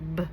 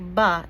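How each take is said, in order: First: The b is clipped with no vowel after. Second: The b is followed by an uh vowel. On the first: The speaker calls it right. "it says b. So we try to clip off that uh sound" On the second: The speaker calls it wrong. "B doesn't say buh"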